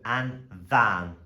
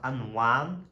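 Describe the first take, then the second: First: The word begins with a v sound. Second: The word begins with a w sound. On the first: The speaker calls it right. "with an I and an E, it equals V" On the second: The speaker calls it wrong. "not and wan"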